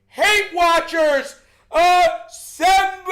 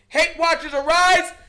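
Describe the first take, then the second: First: It is said forcefully, from the chest. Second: It is said flatly, without force.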